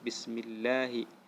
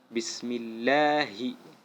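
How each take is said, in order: First: The word is rushed through without pressure. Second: The word is said with clear pressure. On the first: The speaker calls it wrong. "Tidak boleh bacanya lewat" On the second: The speaker calls it right. "tapi ada tekanannya"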